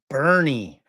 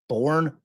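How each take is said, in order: First: The name is said as two syllables, like Bernie. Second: The name is said as one syllable, like born. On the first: The speaker calls it right. "correct my butchering of Texas towns" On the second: The speaker calls it wrong. "Am I saying that right"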